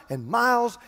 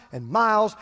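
No difference in how they are said.

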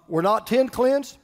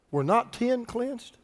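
First: Brisker question with an obvious answer; lifted, matter-of-fact rhetorical question. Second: Slow, softer reading of Jesus's question; unhurried, solemn question; measured scripture question. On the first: Shown as a demonstration. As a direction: ask it as if everyone knows the answer. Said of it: "those questions are rhetorical questions". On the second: Acted. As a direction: read it slowly and quietly, leaving it hanging. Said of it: "Then Jesus answered".

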